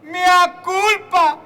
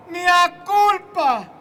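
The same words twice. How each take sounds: First: Slow, loud anguished mea culpa; hammed-up mea culpa. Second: Slow loud wailing mea culpa; repeated anguished mea culpa. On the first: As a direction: wail it like a penitent. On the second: Retold or imitated. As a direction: drag out the second mea culpa.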